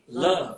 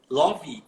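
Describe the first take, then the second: First: The word ends cleanly on the v sound. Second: An extra ee vowel is added after the v. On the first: "Você termina a pronúncia no V" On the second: "a gente colocou um I no final onde não tem"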